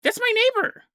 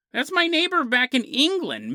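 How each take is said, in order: First: Squeaky high, shocked cry; high mock exclamation. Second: Said in the usual way. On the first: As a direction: blurt it out way up high like a spooked onlooker. Exclaims about neighbor in shock.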